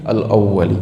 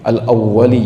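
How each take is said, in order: The two takes are said the same way.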